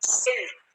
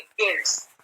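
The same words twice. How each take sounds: First: सेल्ट begun with an S sound; soft S reading. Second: केल्ट्स begun with a hard K sound; hard K reading. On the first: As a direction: say सेल्ट with S in place of K. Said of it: "इसको क्या पढ़ेंगे?". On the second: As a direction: say केल्ट्स with K in place of S. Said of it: "आप इसको केल्ट नहीं पढ़ेंगे". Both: Shown as a demonstration.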